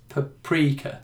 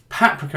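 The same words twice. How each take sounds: First: The stress is on the second syllable. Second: The stress is on the first syllable. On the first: "people say no, it's paprika" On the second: "the emphasis goes on the first vowel"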